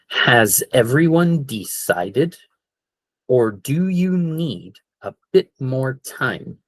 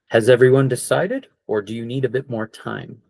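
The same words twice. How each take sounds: First: It is said at a normal, steady speed. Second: It is said at a noticeably faster speed.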